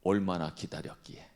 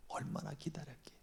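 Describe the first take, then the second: First: Said in the usual way. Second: Whispered softly; whispered echo. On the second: Shown as a demonstration. Preacher whispering how long he waited. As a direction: breathe the words out.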